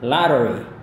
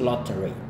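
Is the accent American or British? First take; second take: American; British. First: It is said in an American accent. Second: It is said in a British accent.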